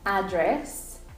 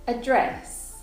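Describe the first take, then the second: First: The stress is on the first syllable. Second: The stress is on the second syllable. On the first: It is used as a noun. "usually the first syllable in nouns is the strong one" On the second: It is used as a verb. "second syllable in verbs is the strong one"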